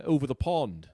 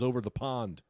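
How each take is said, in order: First: Put-on English accent; mock English "over the pond". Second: Said in the usual way. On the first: Comic announcing where he supposedly is, English accent. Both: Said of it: "did Omicron give you an accent".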